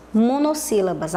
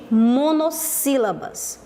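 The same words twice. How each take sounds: First: Said in the usual way. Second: "monossílabas" slowly, in separated parts; measured, teacherly "monossílabas"; slow term announcement. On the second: Shown as a demonstration. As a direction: spell out "monossílabas" as mono, then sílabas. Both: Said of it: "eu chamo de".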